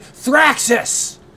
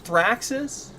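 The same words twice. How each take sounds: First: It is said loudly, as an exclamation. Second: It is said tentatively, like a question.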